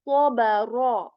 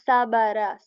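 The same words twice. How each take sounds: First: The first 's' is heavy, with a full mouth. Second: The first 's' is light, with a thin mouth. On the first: The speaker calls it right. "I'm saying sa. Sabara" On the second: The speaker calls it wrong. "I'm not saying sabara"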